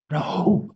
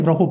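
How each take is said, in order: First: "Rahub" with an open, breathed h between the syllables; corrected pronunciation. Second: "Rahub" run together as an ordinary word; common mispronunciation. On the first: Teacher showing the proper word, carefully pronounced "Rahub". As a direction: say "Rahub" higher, opening the throat on the h. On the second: Teacher quoting how people say it, mispronounced "Rahub". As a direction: say "Rahub" without a separate breathy h. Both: Shown as a demonstration. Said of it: "That's not the correct way of saying it".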